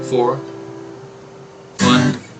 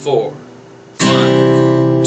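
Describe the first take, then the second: First: A gap comes between four and one. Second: The count runs on evenly without a gap. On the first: The speaker calls it wrong. "you paused between beat four and beat one" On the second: The speaker calls it right. "not to pause anywhere in your counting"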